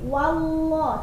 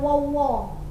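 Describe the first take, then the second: First: The first vowel is thin, a clear 'wa'. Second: The first vowel is heavy, rounded like 'wo'. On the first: The speaker calls it right. "Jadi wallah" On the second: The speaker calls it wrong. "jangan wallah. Nggak ada huruf wa"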